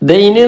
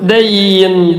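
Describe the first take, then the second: First: The vowel is clipped short. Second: The vowel is slightly lengthened. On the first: The speaker calls it wrong. "എന്നല്ല" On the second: The speaker calls it right. "ഒന്ന് ചെറിയ നിലക്ക് നീട്ടിയാൽ മതി"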